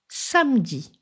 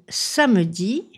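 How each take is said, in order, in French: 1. Le e du milieu est supprimé. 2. Le e du milieu est prononcé.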